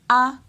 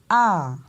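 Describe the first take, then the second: First: The vowel is said on a high pitch. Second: The vowel's pitch rises and then falls. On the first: "l'intonation monte" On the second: "on monte, on descend"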